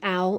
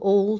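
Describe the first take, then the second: First: The vowel sounds like in 'owl'. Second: The vowel sounds like in 'all'. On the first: The speaker calls it wrong. "I keep saying it wrong" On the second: The speaker calls it right. "you should say awl apparently"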